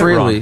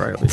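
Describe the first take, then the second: First: The first syllable sounds like 'free'. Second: The first syllable does not sound like 'free'. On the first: The speaker calls it wrong. "A lot of people pronounce it freely" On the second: The speaker calls it right. "but it's"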